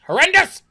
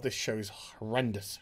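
First: High, loud outburst; appalled shriek. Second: Low, quiet disgust; appalled undertone. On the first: Pretend. Reviewer appalled at the show, loud mock shriek. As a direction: yell it in hammed-up horror. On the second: Real, not acted. Reviewer appalled at the show, hushed disgust. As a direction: let it sink low in dismay.

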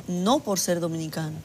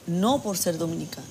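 Both takes have the same delivery.

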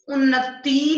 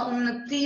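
First: उन्नति with a loud stretched tee ending; wrong long ending. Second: Said in the usual way. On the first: Shown as a demonstration. Teacher correcting a misspelling, उन्नति with loud long tee. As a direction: punch a long ee on the end of उन्नति. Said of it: "नहीं होता". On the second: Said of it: "होता है".

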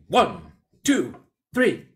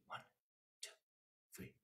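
First: Louder, rising higher to a bright three; loud count. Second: Counted softly, low and gentle. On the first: Teacher showing a loud dynamic pulse. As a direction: count out big and strong. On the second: Teacher showing a soft dynamic pulse. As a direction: keep the pulse hushed. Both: Shown as a demonstration. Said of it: "pulse could have dynamics too".

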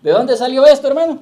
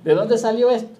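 First: Higher, much louder, called out to the congregation; shouted out loud. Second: Said in the usual way. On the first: Shown as a demonstration. Preacher shouting the question at the congregation, full voice. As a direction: shout the question so the whole church hears. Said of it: "grítelo". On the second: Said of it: "Dígalo sin miedo, grítelo".

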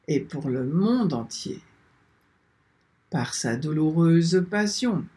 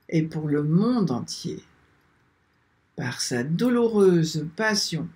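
No difference in how they are said.

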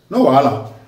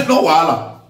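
First: Deadpan "No wahala", falling flat and mocking; an ironic, unbothered "No wahala"; dry sarcastic taunt. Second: "No wahala" with a laugh right before it; chuckle, then toss off "No wahala" mockingly; a scornful laughing "No wahala"; laughing taunt. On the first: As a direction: say "No wahala" like a threat dressed as reassurance. Sarcastic taunt to Abuja rulers. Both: Real, not acted.

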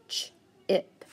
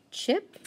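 First: "ch-ip" split, "ch" held apart from "ip"; sounded out. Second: Said in the usual way. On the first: Shown as a demonstration. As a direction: pull "ch-ip" apart into two parts. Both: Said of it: "digraph C H that I need to underline".

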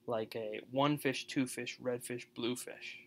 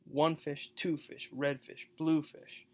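First: One fish two fish with a bouncing beat; nursery-rhyme lilt on one fish, two fish, red fish, blue fish; sing-song rhythm. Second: Bouncy stress on one, two, red, blue with fish unstressed; stress the colors. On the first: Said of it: "those are, um, iambs". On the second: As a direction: hit the colour words, drop the fish. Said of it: "the colors are always stressed". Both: Shown as a demonstration.

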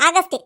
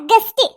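First: The aunt's wrong ആഗസ്റ്റ്, a long "aa" then "gast"; mispronounced guest. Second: Correcting her, a firm ഗസ്റ്റ് that starts straight on "g"; correct guest. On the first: Aunt proudly calls herself ആഗസ്റ്റ്, the "aa" added in front. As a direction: say ആഗസ്റ്റ് as "aagast", with an extra "aa" at the front, like the month August. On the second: Boy corrects the aunt, giving ഗസ്റ്റ് clean without "aa". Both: Acted. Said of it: "ആഗസ്റ്റ് അല്ല, ഗസ്റ്റ്".

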